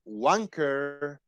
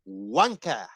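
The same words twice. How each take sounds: First: It is said with an American accent. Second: It is said with a British accent. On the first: "I gonna pronounce it like American" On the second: "like I have heard it, and I think it's the correct correct pronunciation"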